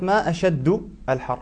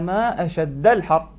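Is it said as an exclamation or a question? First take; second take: question; exclamation. First: The endings carry u and i vowels, asking. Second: The endings carry a vowels, exclaiming. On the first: It asks what the hottest time is. The speaker calls it wrong. "وإذا رفعت كان هذا استفهاما" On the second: It expresses wonder at how hot it is. The speaker calls it right. "إنما تقولين ما أشد الحر"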